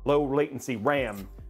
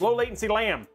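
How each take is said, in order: First: The phrase is said at a normal speed. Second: The phrase is said very quickly.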